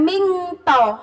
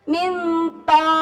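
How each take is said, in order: First: The nasal is a full, clear 'ng' sound. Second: The nasal is a soft, partial 'ng' sound. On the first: The speaker calls it wrong. "bukan mingto" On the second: The speaker calls it right. "tapi minto"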